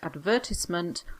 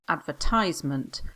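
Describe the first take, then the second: First: It is said with a British pronunciation. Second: It is said with an American pronunciation.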